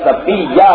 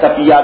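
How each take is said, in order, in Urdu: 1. 'y' کی آواز کھینچی ہوئی اور دوہری ہے۔ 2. 'y' کی آواز چھوٹی ہے، دوہری نہیں۔ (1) "یہ لفظ صفیہ ہے" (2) "آپ کو عادت ہے صفیہ کہنے کی, آپ تشدید نکال دیتے ہیں"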